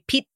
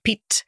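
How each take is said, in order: First: The final T is held without a release. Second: The final T ends with a puff of air. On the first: The speaker calls it wrong. "not releasing the T. They'd just say Pete" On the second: The speaker calls it right. "You aspirated the T on the end of Pete. You put the that little pop of air in it"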